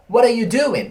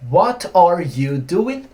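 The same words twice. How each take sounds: First: Said quickly with words run together and reduced. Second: Said slowly with every word fully pronounced. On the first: This is how people speak in real life. "na vida real, a gente tem duas contrações possíveis" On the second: This is textbook English. "Bem devagarinho, né? O inglês dos livros"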